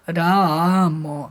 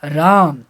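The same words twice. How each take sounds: First: राम stretched very slowly over three beats. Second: Said in the usual way. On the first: Shown as a demonstration. Teacher stretching राम to show three matras. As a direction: hold the vowel of राम long. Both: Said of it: "तीन मात्रा लग रहा है".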